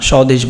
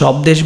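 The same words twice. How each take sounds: First: No b sound follows the first consonant. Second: A b sound follows the first consonant. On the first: The speaker calls it right. "এই যে ব ফলার উচ্চারণ কিন্তু হয়নি" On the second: The speaker calls it wrong. "আমরা কি স্বদেশ বলি? না"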